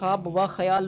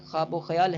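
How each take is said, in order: First: The 'and' is said as a separate 'va'. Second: The 'and' is joined as '-o' to 'khwab'. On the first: The speaker calls it wrong. "लोग पढ़ते हैं" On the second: The speaker calls it right. "सही है।"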